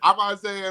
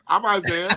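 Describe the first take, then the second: First: It is said confidently, with self-assurance. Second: It is said hesitantly, without confidence.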